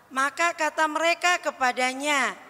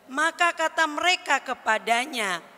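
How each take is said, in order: The two takes are said the same way.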